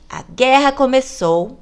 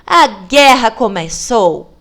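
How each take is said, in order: First: It is said as a question, rising. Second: It is said as a firm exclamation, falling.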